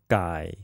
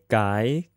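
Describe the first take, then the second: First: The pitch dips low and then rises. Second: The pitch rises from mid to high.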